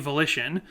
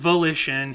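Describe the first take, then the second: First: The word carries its usual stress pattern. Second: The stress falls on an unusual syllable. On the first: The speaker calls it right. "you'd say volition" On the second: The speaker calls it wrong. "He puts the emphasis differently"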